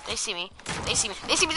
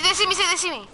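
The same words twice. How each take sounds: First: Said in the usual way. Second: Higher, rising panic; panicked repeat; panicking gamer. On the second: Real, not acted. Panics as enemies spot him.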